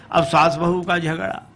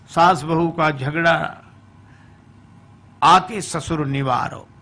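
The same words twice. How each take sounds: First: Said in the usual way. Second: Chanted. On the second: Shown as a demonstration. Preacher chanting the quarrel line as a verse. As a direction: sing the phrase as a verse line.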